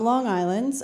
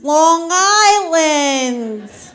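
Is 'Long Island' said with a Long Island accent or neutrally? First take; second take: neutral; Long Island. First: It is said in a plain, neutral accent. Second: It is said in a strong local Long Island accent. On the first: The speaker calls it wrong. "I didn't say that right" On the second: The speaker calls it right. "you guys know it's pronounced Long Island"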